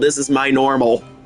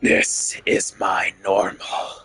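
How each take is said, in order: First: It is said in the speaker's ordinary voice. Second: It is said in a put-on character voice.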